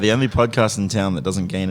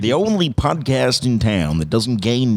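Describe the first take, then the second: First: It is said in a flat, plain manner. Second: It is said with lively, enthusiastic energy. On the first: The speaker calls it wrong. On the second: The speaker calls it right.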